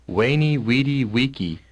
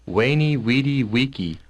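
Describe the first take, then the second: The two takes are said the same way.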